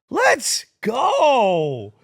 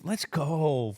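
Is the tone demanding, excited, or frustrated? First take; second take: demanding; frustrated. First: It sounds urgent and demanding. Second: It sounds annoyed and frustrated. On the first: The speaker wants to be given the ball. "Like, get me the ball" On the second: The speaker is fed up with how things are going.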